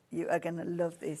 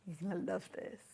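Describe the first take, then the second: First: "are" said in full and stressed. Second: Soft, confiding build-up; hushed teaser. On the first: Presenter promises viewers a treat, stressing "are". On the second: Presenter about to reveal fabric to viewers, hushed. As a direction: say it quietly, as a teaser. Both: Real, not acted.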